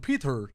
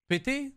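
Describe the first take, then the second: First: The name is said with an American accent. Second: The name is said with a French accent. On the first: "Let's be a little bit American" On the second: "comment vous dites Peter de- dans votre façon, chat?"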